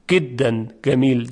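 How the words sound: The jim sounds are pronounced as a hard g. "در لهجه مصری جیم اصلا گاف تلفظ میشه"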